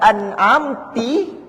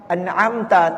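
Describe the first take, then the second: First: The final syllable ends with an 'i' vowel. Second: The final syllable ends with an 'a' vowel. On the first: The meaning of the word is changed. The speaker calls it wrong. "ianya telah mengubah maksud" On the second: It addresses a masculine 'you'. The speaker calls it right. "ta tu maksudnya kamu"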